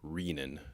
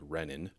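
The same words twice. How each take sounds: First: The first vowel is a long E. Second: The first vowel is a short E. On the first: The speaker calls it right. "the correct pronunciation is with a long E" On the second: The speaker calls it wrong. "More than half the respondents actually pronounce it this way"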